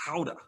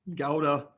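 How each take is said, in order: First: The word begins with a breathy H sound. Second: The word begins with a hard G sound. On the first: This is how people across the ocean say it. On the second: This is the local everyday way to say it.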